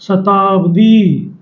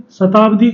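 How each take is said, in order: First: "शताब्दी" very slowly, ending on a long ee; सही बड़ी ई. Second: "शताब्दी" ending on a short i; quick, unstretched final vowel in "शताब्दी"; ग़लत छोटी इ. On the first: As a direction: draw out "शताब्दी" syllable by syllable. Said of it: "सही कौन सा वर्ड होगा". ("शताब्दी" धीरे, आख़िरी ई खींचकर) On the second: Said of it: "लेकिन ये गलत है". ("शताब्दी" के अंत में छोटी इ) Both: Shown as a demonstration.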